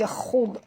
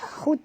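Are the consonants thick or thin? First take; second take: thick; thin. First: The kh and d sounds are thick and heavy. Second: The kh and d sounds are thin and light. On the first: The speaker calls it right. "huruf tebal" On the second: The speaker calls it wrong. "jangan baca khud"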